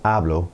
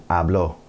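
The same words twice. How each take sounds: First: Hablo with the stress on HA; present-tense hablo, first syllable stressed. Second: Habló with the stress on the final O; past-tense habló, accent on the last vowel; stress on last syllable. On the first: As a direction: say hablo stressed at the front, AH-blo. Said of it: "accent over the last vowel". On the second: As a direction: say habló stressed at the end, ah-BLO. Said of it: "we just have an accent over the last vowel". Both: Shown as a demonstration.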